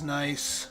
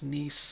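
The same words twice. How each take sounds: First: It rhymes with 'rice', with an 'eye' vowel. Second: It rhymes with 'piece', with a long 'ee' vowel. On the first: The word is read as it is spelled in English. The speaker calls it wrong. "I call it nice 'cause it says nice" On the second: This is the city's own pronunciation. The speaker calls it right. "I know it's pronounced Nice"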